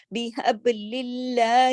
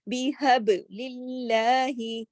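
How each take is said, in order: First: للہ said light, thin lam, drawn out slowly; thin Allah after kasra. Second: بیحب للہ slowly, للہ light and thin; thin Allah recited. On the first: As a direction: keep للہ thin, not heavy. (بیحب للہ میں اللہ باریک پڑھیں) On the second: (بیحب للہ آہستہ، باریک لام) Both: Shown as a demonstration. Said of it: "اللہ کا نام موٹا نہیں ہوگا".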